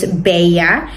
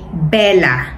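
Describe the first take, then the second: First: The double L sounds like a Y. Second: The double L sounds like an L. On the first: This is how it is said in Spain. "ang double L, no pronounce sila is like Y" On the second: This is how it is said in the Philippines. "in the Philippines, we say Bella"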